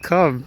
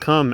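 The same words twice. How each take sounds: First: It is said in a cute toddler voice. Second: It is said in an adult voice.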